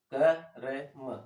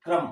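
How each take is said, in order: First: क र म spelled out very slowly, sound by sound; क र म, each sound said slowly and separately; split into sounds. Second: क्रम run together fast as one syllable; said quickly. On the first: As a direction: pull क र म apart, one sound at a time. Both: Shown as a demonstration. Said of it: "अब इसको जल्दी से बोले".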